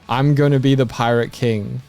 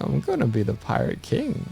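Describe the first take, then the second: First: It is declared boldly, with strong conviction. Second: It is said casually, without any conviction. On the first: The dream is taken completely seriously. The speaker calls it right. "you gotta say that with the like I'm gonna be the Hokage" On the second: The dream sounds like a throwaway remark. The speaker calls it wrong. "I'm not buying the kind of like"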